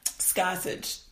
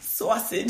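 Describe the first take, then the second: First: The word begins with an sk sound. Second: The word begins with a plain s sound.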